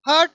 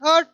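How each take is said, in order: Both takes have the same delivery.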